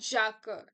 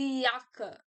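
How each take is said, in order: First: The word begins with a J sound. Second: The word begins with a Y sound. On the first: The speaker calls it wrong. "not jaka" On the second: The speaker calls it right. "just pronounce the J as yeah"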